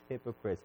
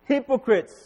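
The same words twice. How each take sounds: First: The word is said flatly, with little energy. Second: The word is said forcefully, with strong energy. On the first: The speaker calls it wrong. "I don't think that Jesus was saying it this way" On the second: The speaker calls it right. "I think there was energy there"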